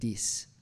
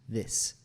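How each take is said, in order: First: The first sound is a D. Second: The first sound is a TH, tongue between teeth. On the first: The speaker calls it wrong. "it sounds like he's saying dis" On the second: The speaker calls it right. "like your tongue is between your teeth"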